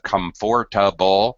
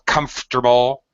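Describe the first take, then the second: First: The middle syllable is kept. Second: The middle syllable is dropped. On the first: "instead of comfortable" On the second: "or comfortable"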